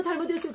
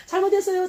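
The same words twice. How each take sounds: First: High but quieter repeat; softer mock apology. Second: High, loud mock-whining sorry; whiny apology. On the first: Mocking believers repeating their apology, softer. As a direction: echo the sorry more softly. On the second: Mocking believers' easy apology, whiny. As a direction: whine the apology like a child. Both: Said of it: "이런 말 많이 들었어요".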